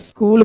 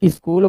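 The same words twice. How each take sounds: First: The word begins directly with the s-consonant cluster. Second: An extra vowel is added before the s-cluster. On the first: The speaker calls it right. "स्कूल के जगह पर" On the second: The speaker calls it wrong. "स्कूल बोले"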